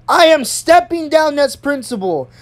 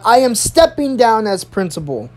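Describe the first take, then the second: First: High-pitched, emphatic declaration; retold raised voice. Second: Measured address at usual pitch; principal's announcement. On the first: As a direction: imitate an angry principal announcing departure. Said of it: "She literally raised her voice". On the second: Retold or imitated. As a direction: imitate a principal addressing the class. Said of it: "She taps on the microphone. She says".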